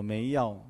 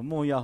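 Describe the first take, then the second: First: The first syllable is said as mei. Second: The first syllable is said as mo. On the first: The speaker calls it wrong. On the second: The speaker calls it right.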